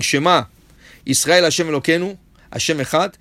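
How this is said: There is a pause right after the first word.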